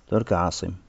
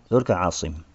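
The two takes are said the same way.

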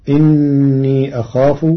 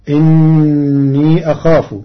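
The two takes are said the same way.

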